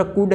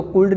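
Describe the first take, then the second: First: "कुड" with no l sound before the d; silent L. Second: "कुल्ड" with the l sounded before the d; mispronounced could. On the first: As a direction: say "कुड", leaving the L out. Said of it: "यानी एल silent है". ("कुड", एल silent रखकर) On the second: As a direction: say "कुल्ड", wrongly voicing the L. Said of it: "कुल्ड नहीं पढ़ना". ("कुल्ड", एल की आवाज़ के साथ ग़लत उच्चारण) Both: Shown as a demonstration.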